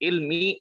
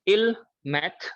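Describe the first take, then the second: First: The word ends without a t sound. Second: The word ends with a t sound. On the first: The speaker calls it wrong. "तो यहाँ पर मी होना चाहिए" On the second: The speaker calls it right. "यहाँ पर आप इसको मैथ ही बोलोगे"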